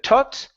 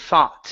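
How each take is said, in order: First: The word begins with a plain t sound. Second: The word begins with a th sound. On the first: The speaker calls it wrong. "Instead of tot" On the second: The speaker calls it right. "give me a T H"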